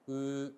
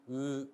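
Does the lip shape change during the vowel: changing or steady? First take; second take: steady; steady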